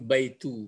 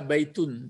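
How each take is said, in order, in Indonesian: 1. Kata ini diakhiri dengan vokal u biasa. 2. Kata ini diakhiri dengan bunyi n tambahan. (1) "tapi baitu, baris depan" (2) "tidak boleh dibaca baitun"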